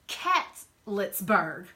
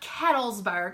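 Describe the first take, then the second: First: The name is said like 'Catletsburg'. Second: The name is said like 'Cattlesburg'. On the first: The speaker calls it right. "It's Catletsburg" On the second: The speaker calls it wrong. "It's not Cattlesburg"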